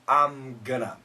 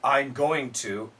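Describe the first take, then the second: First: Going to is reduced and blended into gonna. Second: Going to is said fully as separate words. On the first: This is the usual everyday form. "usually I'm gonna" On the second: This is the standard form. "we should say I'm going to"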